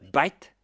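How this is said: It starts with a b sound, Indian accent.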